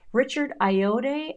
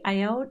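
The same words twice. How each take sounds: First: "Ayoade" tried slowly, ending in a "day" sound; tentative pronunciation. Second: "Ayoade" cut short as eye-ode, rising; softer second try at "Ayoade", eye-ode with a questioning lift; tentative pronunciation. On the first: Unsure of an actor's name, trying "Ayoade" as eye-oh-day. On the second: Unsure of an actor's name, trying "Ayoade" as eye-ode. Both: Shown as a demonstration. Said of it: "I don't know how to pronounce that".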